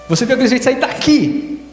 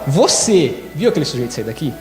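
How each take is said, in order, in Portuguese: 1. A palavra daqui tem a ênfase. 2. A palavra você tem a ênfase. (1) "foi daqui que ele saiu?" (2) "eu estou perguntando se foi você que viu ou se foi outra pessoa que te contou"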